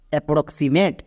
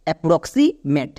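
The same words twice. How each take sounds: First: approximate run together as one word; whole-word teaching demo; joined-up pronunciation. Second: approximate said slowly, parts still audible; careful, slow teaching pronunciation; slow joined-up demo. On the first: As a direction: say approximate more fluently, parts blended. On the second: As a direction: draw out approximate with a slight break before মেট. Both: Shown as a demonstration. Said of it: "এবার একসঙ্গে উচ্চারণ করো".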